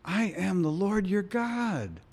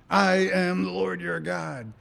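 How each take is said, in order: First: It sounds warm and affectionate. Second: It sounds firm and commanding. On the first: It is an expression of love. "Meaning, I love you guys" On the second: It is a statement of authority. "instead of saying, I've been saying this a lot"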